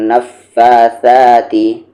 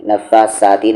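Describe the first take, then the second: First: Slow नफ्फासाती, स as th in think; correct tha sound. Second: नफ्फासाती with plain hissing s; wrong s sound. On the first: Teacher modelling the verse, th in नफ्फासाती. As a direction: draw out नफ्फासाती with tongue-to-teeth th. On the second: Teacher showing what not to say, plain s in नफ्फासाती. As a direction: say नफ्फासाती using seen instead of th. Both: Shown as a demonstration. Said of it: "नफ्फासाती नहीं".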